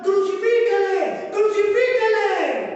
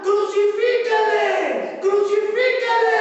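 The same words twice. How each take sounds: First: Raised, slow crowd cry; crowd shouting crucify. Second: Louder, very slow drawn-out shout; crowd shouting crucify. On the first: Preacher voicing the crowd demanding the crucifixion, slow raised shout. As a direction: call it out like the angry crowd. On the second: Preacher building to the mob's crucify cry, full drawn-out shout. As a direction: roar it like the mob at full force. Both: Retold or imitated.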